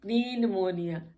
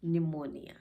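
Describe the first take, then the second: First: निमोनिया with "puh-nee" at the start, lightly amused; wrongly sounded P. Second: निमोनिया said lower, starting on N; no P sound at all in निमोनिया; silent P. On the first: Teacher repeats her own slip, निमोनिया with a P. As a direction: put a P before the N in निमोनिया. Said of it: "तो नहीं". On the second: Teacher gives the correct word, निमोनिया with silent P. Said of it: "पी silent". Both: Shown as a demonstration.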